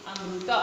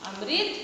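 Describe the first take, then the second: First: "अमृत" said as amruta; Odia pronunciation. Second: "अमृत" said as amrit; Hindi pronunciation. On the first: Teacher showing the Odia form, Odia pronunciation. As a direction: say "अमृत" with ru in place of ri. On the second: Teacher contrasting Hindi with Odia, Hindi pronunciation. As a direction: say "अमृत" with ri in the second syllable. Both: Shown as a demonstration. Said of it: "Odia में।".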